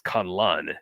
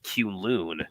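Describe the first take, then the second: First: "Kunlun" said KUN-lun with short vowels; show's Kunlun pronunciation. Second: "Kunlun" said kyoon-LOON; old Kunlun pronunciation. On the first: Fan reporting the show's version, kun-lun pronunciation. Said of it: "the show comes on and says". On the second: Fan recalling reading the comics, kyoon-loon pronunciation. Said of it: "I would pronounce the city". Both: Shown as a demonstration.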